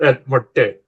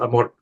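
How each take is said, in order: First: The name ends with an extra vowel sound. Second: The name ends without an extra vowel sound. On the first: The speaker calls it wrong. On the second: The speaker calls it right.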